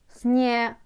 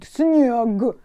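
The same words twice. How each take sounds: First: The word ends with a voiceless k sound. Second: The word ends with a voiced g sound. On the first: The speaker calls it right. "I can pronounce it like k at the end" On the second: The speaker calls it wrong. "don't be like a granny, you know. Снег. Don't say that"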